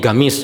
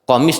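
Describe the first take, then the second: First: The word begins with a g sound. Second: The word begins with a k sound.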